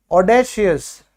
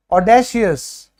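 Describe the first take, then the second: First: Said in the usual way. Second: audacious said slowly, syllable by syllable: ऑ-डे-शि-यस; slow model word. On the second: Shown as a demonstration. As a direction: draw out audacious for the class to copy. (Audacious धीरे-धीरे, एक-एक अक्षर)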